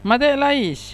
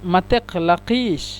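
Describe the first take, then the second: First: The q sounds become glottal stops, Egyptian style. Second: The q sounds are pronounced as full q.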